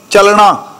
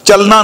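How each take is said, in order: First: ਚੱਲਣਾ said with retroflex ɳ, chəlɳa; ਚੱਲਣਾ with the tongue curled back on the ਣ; correct pronunciation. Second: ਚੱਲਣਾ said with a plain dental n, chəlna; ਚੱਲਣਾ with the wrong ਨ sound, tongue at the teeth; wrong pronunciation. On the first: Preacher shows the congregation the right way to say ਚੱਲਣਾ. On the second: Preacher shows the congregation the wrong way to say ਚੱਲਣਾ. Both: Shown as a demonstration. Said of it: "ਨੰਨੇ ਨਾਲ ਨਹੀਂ".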